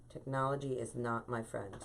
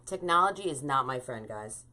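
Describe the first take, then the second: First: A rueful aside under her breath; muttered repeat. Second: Said in the usual way. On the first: Real, not acted. Host grumbling to herself about the stream, muttered. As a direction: lower and softer, muttered to herself. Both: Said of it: "repeats the complaint".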